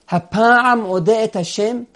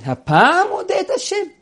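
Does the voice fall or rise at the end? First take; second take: fall; rise. First: It is said as a statement, falling. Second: It is said as a question, rising.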